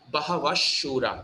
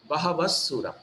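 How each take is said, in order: First: The middle consonant is an sh sound. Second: The middle consonant is a plain dental s. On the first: "it's S H as in shirt" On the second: "if it was regular S"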